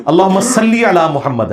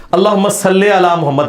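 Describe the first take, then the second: First: صلی said slowly as "salli", with a pure ee; معروف correct reading. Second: صلی said as "salle", with an e; مجہول wrong reading. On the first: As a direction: recite slowly, ending صلی on a clear i. (صلی کو ٹھہر کر "صلّی" پڑھنا) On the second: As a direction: end صلی on an open e sound. (صلی کو "صلے" پڑھنا) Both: Shown as a demonstration. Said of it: "یہ صلی علی تو غلط ہے".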